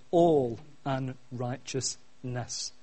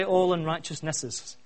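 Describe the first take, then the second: First: "all unrighteousness" slow and spaced out, lower; stress on ALL. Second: Said in the usual way. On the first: Shown as a demonstration. Preacher correcting the plural to what scripture says, "all unrighteousness" slow and emphatic. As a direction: draw out "all", then measure out "unrighteousness". Stresses the actual singular wording.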